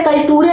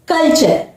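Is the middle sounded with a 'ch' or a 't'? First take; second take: t; ch. First: It has a 't' sound and a final 're'. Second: It has a 'ch' sound and ends in 'er'. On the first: The speaker calls it wrong. "यहां पे कल्टूरे नहीं पढ़ेंगे" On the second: The speaker calls it right. "यहां पर पढ़ेंगे हम कल्चर"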